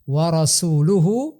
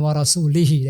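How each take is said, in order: First: The word ends with an u vowel. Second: The word ends with an i vowel. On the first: The messenger also disavows the idolaters. The speaker calls it right. "harokat huruf terakhir dari kalimat warasuluhu" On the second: God also disavows the messenger. The speaker calls it wrong. "dia harakati dengan warasulihi. Nah, ini berbahaya"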